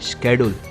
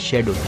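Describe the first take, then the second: First: The word begins with an sk sound. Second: The word begins with an sh sound. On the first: This is how the suspect says it. "आपने क्या कहा? स्केड्यूल" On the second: This is the usual Indian English way. "Indian English में कहते हैं शेड्यूल"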